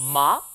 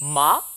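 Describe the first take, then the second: First: The pitch curls slightly upward. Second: The same.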